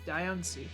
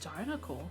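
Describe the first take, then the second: First: The name is said without an L sound. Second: The name is said with an L sound. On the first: The speaker calls it right. "is there not an L in it?" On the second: The speaker calls it wrong. "I thought it was always Dinocle"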